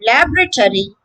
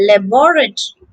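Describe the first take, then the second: First: LAB-ruh-tory for "laboratory"; American "laboratory", LAB-ruh-tory; American pronunciation. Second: Luh-BOR-uh-tree for "laboratory"; British "laboratory", luh-BOR-uh-tree; British pronunciation. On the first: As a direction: stress the first syllable of "laboratory", LAB. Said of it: "American it's laboratory". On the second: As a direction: stress the second syllable of "laboratory", BOR. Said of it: "and in British". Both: Shown as a demonstration.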